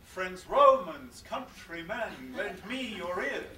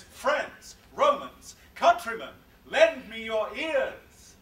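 First: Slow, even beat on Friends Romans, countrymen, lend me your ears; regular iambic reading. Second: Loud, higher, slow, Friends Romans punched hard; commanding call to a crowd. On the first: Teacher showing the wrong, regular version of the line. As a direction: read it in even dee-dum rhythm. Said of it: "Mark Antony doesn't say". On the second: Antony grabbing the crowd, a big loud slow call. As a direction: call out to seize the crowd's attention. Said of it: "He says". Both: Shown as a demonstration.

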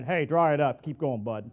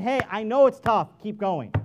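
First: Curt, lower, brushing it off; a hint of a tough father telling the child to dry up; dismissive tough talk. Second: Kind, loud and encouraging; gentle encouragement. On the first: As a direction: tell them to toughen up, gruffly. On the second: Retold or imitated. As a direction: urge them on kindly. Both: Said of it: "that's a whole lot different than".

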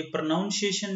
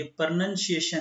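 First: प्रोनाउंसिएशन said with "nown" like pronounce; प्रोनाउंसिएशन with the "nown" vowel, the wrong way; wrong pronunciation. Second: प्रोनंसिएशन said with short "nun", not "nown"; प्रोनंसिएशन with the short "nun" sound; correct pronunciation. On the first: Teacher showing students the wrong way, प्रोनाउंसिएशन with "nown". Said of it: "ये प्रोनाउंसिएशन नहीं होता". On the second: Teacher giving students the correct form, प्रोनंसिएशन with short "nun". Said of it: "ये प्रोनंसिएशन है". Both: Shown as a demonstration.

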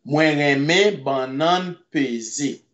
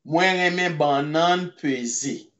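First: "Mwen reme banan peze" said slowly, each syllable clear for learners; slow it down so students catch "Mwen reme banan peze"; slow careful repeat. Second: Said in the usual way. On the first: Shown as a demonstration. Creole teacher slowing "Mwen reme banan peze" for the class.

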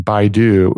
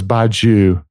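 First: Baidu said as BYE-doo, two syllables; mispronounced Badiou. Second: Badiou said as bad-YOO, with a y-glide after the d; corrected pronunciation. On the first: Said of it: "I was pronouncing it wrong last time". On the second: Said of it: "it's definitely not Baidu because it's B A D I O U". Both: Shown as a demonstration.

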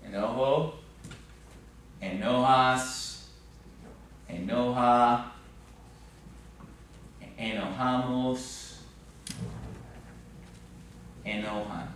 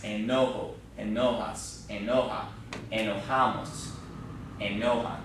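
First: Each form slow, spaced out, stress marked clearly; slow careful drill. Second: Said in the usual way. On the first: Shown as a demonstration. Teacher modeling conjugations slowly for the class, deliberate stress. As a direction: enojo enojas enoja enojamos enojan, slowly with clear stress. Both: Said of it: "get the accent in the right place".

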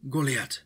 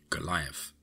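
First: High-pitched call from a distant figure; a raised, commanding hail. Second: Said in the usual way. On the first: A narrator's reading. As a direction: call the name out in Hungarian. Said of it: "a voice called out".

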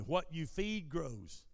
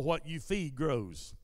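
First: Slow, calm, softer words; slowly and calmly. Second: Said in the usual way. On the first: Shown as a demonstration. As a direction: let each word sink in gently. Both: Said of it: "I'm gonna say this slowly and calmly".

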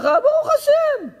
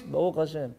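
First: Very high, slow, squeaky "ברוך השם"; "ברוך השם" בקול גבוה מאוד, איטי וצייצני; squeaky high reply. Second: Low, soft rote mumble of "ברוך השם"; עונה "ברוך השם" בשקט, נמוך וממולמל. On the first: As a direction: pipe up "ברוך השם" high and drawn out, as if forcing it. Asked about his wife. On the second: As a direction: toss off "ברוך השם" low and quiet, barely voiced. Congregant answers by rote. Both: Retold or imitated.

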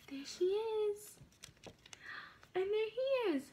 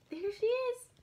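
First: Slow, hushed reveal; whisper. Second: Said in the usual way. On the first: Real, not acted. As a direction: breathe it out slowly in a whisper.

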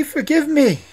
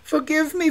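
First: High, loud plea with a falling end; prince crying out. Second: High, loud pleading prince; prince crying out. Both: A narrator's reading. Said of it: "cried the prince".

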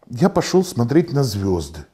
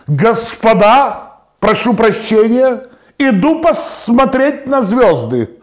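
First: Said in the usual way. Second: High, slow, drawn-out proclamation; stretched, raised-voice officer's address; grand announcement. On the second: Acted. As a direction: call out pompously to the whole hall.

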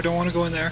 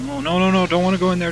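First: Said in the usual way. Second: Higher, louder panicked pleading; mock panic. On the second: Real, not acted. Gamer refusing the vent, loud mock-panicked pleading. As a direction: beg not to go in there, half-joking.

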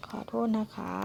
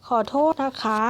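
First: Said again much softer, almost to herself; teacher quietly repeating the polite apology for the class. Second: Said in the usual way. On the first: Shown as a demonstration. Teacher repeats the apology softly to students. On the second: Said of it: "ชิเลฮาจิมัน อุเชกุกิ ออดี มิกะ".

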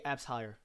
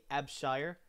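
First: Abshire split as "abs hire"; mispronounced last name. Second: Abshire, as one name with a "sh" in the middle; usual name pronunciation. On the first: Retold or imitated. Imitating teachers reading the last name, split mispronunciation. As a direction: say "Abshire" as two words, abs plus hire, no "sh". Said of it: "pronounced wrong". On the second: Shown as a demonstration. Streamer explaining their last name, usual "sh" pronunciation. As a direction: run the s and h of "Abshire" together as "sh". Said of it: "they don't say Abshire".

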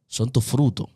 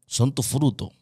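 The two takes are said the same way.

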